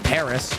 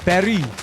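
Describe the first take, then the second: First: It is said with a plain English accent. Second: It is said with a French accent. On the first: The speaker calls it wrong. "it sounds way cooler than saying Paris" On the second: The speaker calls it right. "when you say like Paris in like a French tongue"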